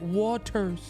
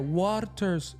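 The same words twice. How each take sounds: First: The R sound is plain, not rolled. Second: The R sound is rolled with the tongue. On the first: The speaker calls it right. "She pronounces that whole perfect" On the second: The speaker calls it wrong. "No, she didn't even roll her tongue"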